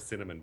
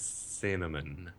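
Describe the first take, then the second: First: The opening S sound is short and plain. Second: The opening S sound is long and hissed.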